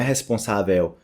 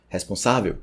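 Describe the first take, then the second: First: "responsável" with open final vÉU; wrong pronunciation. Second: "responsável" peaking on SÁ; correct stress. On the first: Teacher shows what not to say, wrong pronunciation. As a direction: misplace weight onto the end of "responsável". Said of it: "não é responsável". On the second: Teacher shows the peak to learners, correct stress. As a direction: lean on SÁ in "responsável", light veu. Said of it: "Tem esse, esse pico". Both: Shown as a demonstration.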